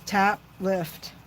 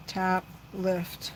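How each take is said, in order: First: "Tap" struck firmly, then "lift" said lightly; tap lift rhythm. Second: "Tap, lift." repeated much softer, almost to herself. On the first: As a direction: say "Tap, lift." in an even, instructing beat. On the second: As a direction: murmur "Tap, lift." quietly while concentrating. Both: Shown as a demonstration. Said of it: "So this is the key with this".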